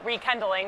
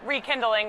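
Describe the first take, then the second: First: "rekindling" said as re-KEN-dling; name pun pronunciation. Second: Said in the usual way. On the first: Shown as a demonstration. Co-host joking about what friends call it, punning pronunciation. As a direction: say "rekindling" with KEN in place of KIN, like Kendall. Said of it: "my friends would call it".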